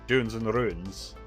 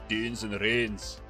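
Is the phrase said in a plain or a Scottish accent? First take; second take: plain; Scottish. First: It is said in the speaker's ordinary accent. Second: It is said in a Scottish accent. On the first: "it doesn't roll off the tongue" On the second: "if I say it in a Scottish accent"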